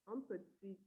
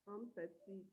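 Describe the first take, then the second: The two takes are said the same way.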